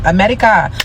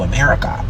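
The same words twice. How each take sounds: First: Mock South African accent. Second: Said in the usual way. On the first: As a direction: imitate a South African saying America. Mimics [name] saying America, then corrects her.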